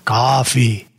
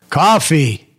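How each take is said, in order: First: It is said at the quietest level. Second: It is said at the loudest level.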